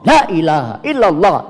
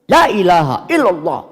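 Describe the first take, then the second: First: The vowel of the first word is short. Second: The vowel of the first word is long. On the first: The speaker calls it wrong. "itu yang salah karena lamnya pendek" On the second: The speaker calls it right. "ini kan lamnya kayak buatan pan panjang"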